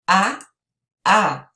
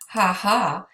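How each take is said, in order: First: Each syllable starts straight on the vowel. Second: Each syllable starts with an audible h sound. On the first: "You would pronounce that ah, ah because the H is silent" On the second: "in English we say"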